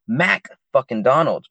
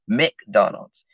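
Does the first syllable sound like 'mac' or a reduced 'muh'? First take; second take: mac; muh. First: The first syllable is a full 'mac'. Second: The first syllable is a reduced 'muh'. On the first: "I remember it McDonald's" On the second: "not McDonald's"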